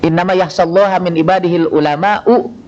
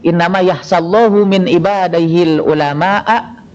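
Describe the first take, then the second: First: God's name ends in a; the last word in u. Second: God's name ends in u; the last word in a. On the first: Only the scholars fear God. The speaker calls it right. "artinya hanya ulamalah yang takut kepada Allah" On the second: God fears only the scholars. The speaker calls it wrong. "Kalau dibalik"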